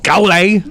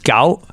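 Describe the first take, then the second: First: Said with the tone that gives the meaning fight. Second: Said with the tone that gives the meaning nine. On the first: It means to fight someone. "I want to fight you, or gale" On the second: It means the number nine. "So the number nine, which is gal"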